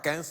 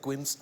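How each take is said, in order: First: It sounds like the French number fifteen. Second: It sounds like the English word queens. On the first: The speaker calls it wrong. "ça ne se prononce pas quinze" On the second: The speaker calls it right. "c'est Queens"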